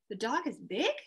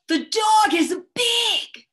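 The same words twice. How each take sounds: First: It is said as a doubtful, questioning query. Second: It is said with strong expression and feeling. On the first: The speaker doubts that it is really big. "I'm questioning that" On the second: The dog could be very big and scary. "I said it with a lot of expression and a lot of feeling"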